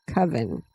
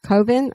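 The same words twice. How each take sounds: First: "coven" with a short U, like oven. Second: "coven" with a long O, like cove. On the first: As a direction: say "coven" as KUV-un. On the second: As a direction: say "coven" as KOH-vun. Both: Shown as a demonstration. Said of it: "Do you pronounce it".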